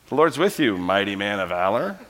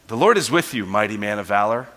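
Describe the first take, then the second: First: The tone is mocking and sarcastic. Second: The tone is warm and sincere. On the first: The speaker is mocking him for hiding. "Hiding from the Midianites?" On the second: The speaker truly sees him as a mighty man of valor. "That's who you really are. I see you as a mighty man of valor"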